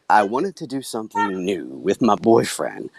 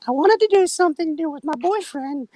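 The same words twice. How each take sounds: First: It is said in a normal speaking voice. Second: It is said in a put-on character voice. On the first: The speaker calls it wrong. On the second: The speaker calls it right.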